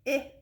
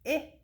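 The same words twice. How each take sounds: First: The vowel is the short sound, like 'ih'. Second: The vowel is the short sound, like 'ih'.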